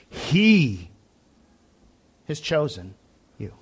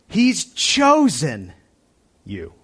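First: The stress is on the word he. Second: The stress is on the word you.

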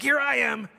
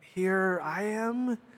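First: It is said in a proud, bold tone. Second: It is said in a humble, meek tone.

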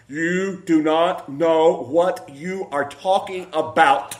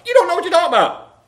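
First: It is said slowly. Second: It is said fast.

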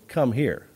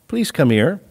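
First: It is said in a stern way. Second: It is said softly and gently.

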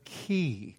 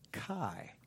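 First: The word is said the Greek way, like key. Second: The word is said with an anglicized American vowel. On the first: "which is a key" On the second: "That's an American anglicized pronunciation"

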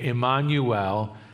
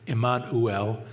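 First: The name is pronounced the usual English way. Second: The name is pronounced the Hebrew way.

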